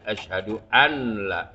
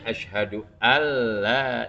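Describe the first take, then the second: First: The n is clearly pronounced before the l. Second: The n merges into a doubled l sound. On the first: The speaker calls it wrong. "itu namanya di, di, diizharkan dijelasin ditegesin" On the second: The speaker calls it right.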